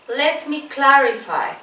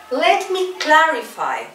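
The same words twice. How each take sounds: The two takes are said the same way.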